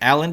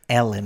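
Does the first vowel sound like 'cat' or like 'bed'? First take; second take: cat; bed. First: The first vowel sounds like the vowel in cat. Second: The first vowel sounds like the vowel in bed. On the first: The speaker calls it wrong. "I knew I would say it wrong" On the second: The speaker calls it right. "Thank you"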